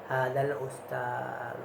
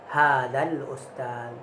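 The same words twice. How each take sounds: First: The final vowel is voiced softly and weakly. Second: The final vowel is silent, lips only rounded. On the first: "Kita baca do-nya tuh tapi halus suaranya" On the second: "Kada bersuara do-nya tuh"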